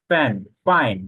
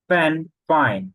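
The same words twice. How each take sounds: The two takes are said the same way.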